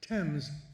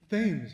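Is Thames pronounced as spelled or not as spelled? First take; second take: not as spelled; as spelled. First: It is pronounced differently from the way it is spelled. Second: It is pronounced just the way it is spelled. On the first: The speaker calls it right. "it's pronounced Thames" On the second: The speaker calls it wrong. "Spell it. Say it"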